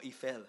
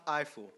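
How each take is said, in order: First: Eiffel said as "ee-FELL"; French-style pronunciation. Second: Eiffel said as "EYE-ful"; English pronunciation. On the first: Offering an alternative for the surname, Eiffel as French-style "ee-FELL". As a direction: say Eiffel starting with "ee", ending in "fell". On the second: Unsure of the engineer's surname, Eiffel as English "EYE-ful". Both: Shown as a demonstration. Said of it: "how do you pronounce that".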